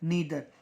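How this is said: The first vowel sounds like 'ee'. "British को follow करते हैं इसलिए हम कहेंगे ईदर और नीदर"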